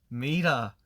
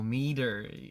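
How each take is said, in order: First: The R is dropped, sounding like 'mira'. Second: The R at the end is rolled. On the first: "이걸 그냥 되게 그냥 안 하면 돼요" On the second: "이런 R 발음들이 있잖아요"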